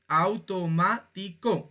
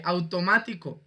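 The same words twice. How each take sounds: First: "Automático" split slowly into au-to-má-ti-co; slow classroom syllable count on "Automático". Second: Said in the usual way. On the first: Shown as a demonstration. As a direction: sound out "Automático" one syllable at a time. Teacher splits the word into syllables.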